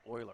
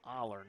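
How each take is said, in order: First: The name begins with an 'oy' sound. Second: The name begins with an 'oh' sound. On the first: The speaker calls it wrong. "not Euler" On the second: The speaker calls it right. "thank you for that pronunciation correction"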